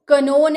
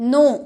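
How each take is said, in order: First: The k sound is pronounced before the n. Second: The word starts directly with the n sound. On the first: The speaker calls it wrong. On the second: The speaker calls it right.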